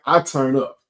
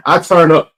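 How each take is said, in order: First: Said in the usual way. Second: Louder, with a punch on turn; heated and loud. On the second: Shown as a demonstration. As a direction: bark "I turn up" like you're heated. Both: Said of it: "I turn the fuck up".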